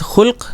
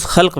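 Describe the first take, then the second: First: خلق said as khulq, u after the kh; خلق with a short u: khulq; khulq with pesh. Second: خلق said as khalq, a after the kh; خلق with a short a: khalq; khalq with zabar. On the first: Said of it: "اس کا تلفظ". (خلق پیش کے ساتھ: خُلق) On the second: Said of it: "اس کا ایک تلفظ خلق بھی ہے". (خلق زبر کے ساتھ: خَلق) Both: Shown as a demonstration.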